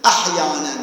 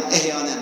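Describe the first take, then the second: First: احیاناً with an open a and a throaty h, ahyanan; احیاناً as ahyanan, careful Arabic; correct pronunciation. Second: احیاناً said with a front e, ehyanan, as people often say it; quoting the common mistake, احیاناً with e at the start; احیاناً as ehyanan, the wrong way; common wrong pronunciation. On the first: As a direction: give the correct form, احیاناً starting with a. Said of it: "غلط احیاناً". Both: Shown as a demonstration.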